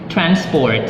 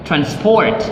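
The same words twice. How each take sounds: First: The stress is on the first syllable. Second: The stress is on the second syllable. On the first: It is used as a noun. "the nouns" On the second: It is used as a verb. "second syllable stress used as a verb"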